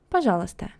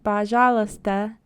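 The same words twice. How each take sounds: First: The A vowels are said in a normal way. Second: The A vowels are strongly exaggerated and drawn out. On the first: The speaker calls it right. "That's a normal" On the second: The speaker calls it wrong. "overpronouncing A"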